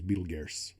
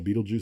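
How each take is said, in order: First: The name is said with an R sound. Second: The name is said without any R sound. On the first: This is the proper name of the star. "proper pronunciation is Betelgeuse" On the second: This is the name people commonly use. "the one we call Betelgeuse"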